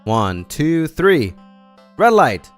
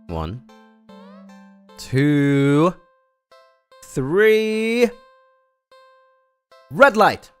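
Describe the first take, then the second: First: The count is said fast. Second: The count is said slowly.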